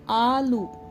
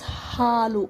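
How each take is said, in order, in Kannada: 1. ಈ ಪದ ಸ್ವರದಿಂದ ಶುರುವಾಗುತ್ತದೆ, ಹ ಇಲ್ಲ. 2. ಈ ಪದ ಹ ಧ್ವನಿಯಿಂದ ಶುರುವಾಗುತ್ತದೆ. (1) "They say aloo. There is no word called aloo in Kannada" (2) "Halu means milk"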